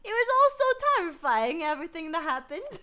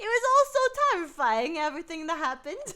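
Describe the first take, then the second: First: It is read in a Cockney accent. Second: It is read in a Cockney accent.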